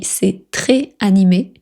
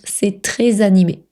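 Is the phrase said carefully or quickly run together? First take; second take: carefully; quickly. First: It is said slowly, each word kept separate. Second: It is said quickly, the words run together. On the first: "on l'écrit" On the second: "prononcent rapidement"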